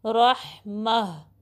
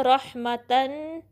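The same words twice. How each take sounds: First: Slow रहमा ending in a breathed h; stopping form. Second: Slow रहमतन with t and tan ending; continuing form. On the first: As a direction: close रहमा on h, not t. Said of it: "उसको हा में बदल देंगे". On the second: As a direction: sound the final तन of रहमतन, held. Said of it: "पढ़ सकते हैं". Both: Shown as a demonstration.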